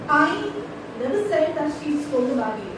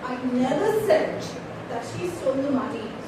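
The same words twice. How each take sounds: First: The stress falls on the word I. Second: The stress falls on never said. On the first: Someone else said it. "So it's not I, it is somebody else" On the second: It was never actually said. "if I give emphasis on never said"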